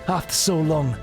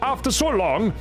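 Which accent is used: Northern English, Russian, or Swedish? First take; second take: Northern English; Swedish. First: It is spoken with a Northern English accent. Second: It is spoken with a Swedish accent. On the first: "Maybe in Northern English" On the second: "My Swedish is just gonna sound like"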